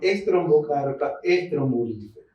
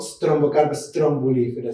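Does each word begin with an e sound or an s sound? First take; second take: E sound; S sound. First: Each word starts with an e before the s. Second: Each word starts directly with an s sound. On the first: The speaker calls it right. "sino que es estrombocarpa estrombulífera" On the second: The speaker calls it wrong. "no digo strombocarpa strombulífera"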